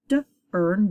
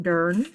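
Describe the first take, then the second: First: D, then earn after a short break; sounded out. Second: Dern as one syllable with rising end; blended word. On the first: Teacher reading through cards, sounded out D and earn. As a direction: split D from earn. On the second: Teacher reading through cards, blended dern. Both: Shown as a demonstration.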